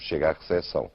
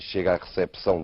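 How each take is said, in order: First: The p in recepção is not pronounced. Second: The p in recepção is clearly pronounced. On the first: This is how the Portuguese say it. "Nós dizemos" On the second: This is how Brazilians say it. "Os brasileiros dizem"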